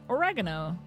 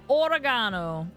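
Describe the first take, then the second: First: It is said with an American pronunciation. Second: It is said with a British pronunciation.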